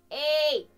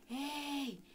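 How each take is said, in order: First: The sound is bright, metallic and strident. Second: The sound is unclear, soft and airy. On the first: "sunetul meu va fi mai metalic, mai strident" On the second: "sunetul meu va fi foarte neclar și aerat"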